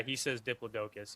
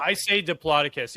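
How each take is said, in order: First: Diplodocus with a long O, DIP-lo-DOH-kus; pronunciation demo. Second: Diplodocus stressed on the second syllable, di-PLOD-uh-kus; pronunciation demo. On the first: Host showing a friend's way of saying it, Diplodocus with DOH stressed. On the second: Host showing their own way of saying it, Diplodocus with PLOD stressed. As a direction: say Diplodocus as dip-LOD-uh-kus. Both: Shown as a demonstration. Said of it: "contrasting pronunciations of it".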